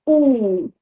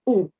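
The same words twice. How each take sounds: First: The vowel is long and tense. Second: The vowel is short and relaxed. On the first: "tense or long as ooh" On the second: "relax and shorter"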